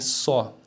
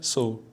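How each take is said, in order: First: The word is said with strong emphasis. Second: The word is said weakly, without emphasis. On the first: "falando com ênfase" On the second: "Se falar fra de maneira fraca"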